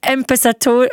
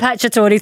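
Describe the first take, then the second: First: Imperator- with the middle mangled and cut off; Imperator- stumbling, stopping after Imperator; mispronounced surname. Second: Impacciatore said im-patch-a-TOR-ee; corrected pronunciation. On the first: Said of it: "I can't say it". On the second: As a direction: Impacciatore repeated carefully after the correction. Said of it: "I think it's Impacciatore". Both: Shown as a demonstration.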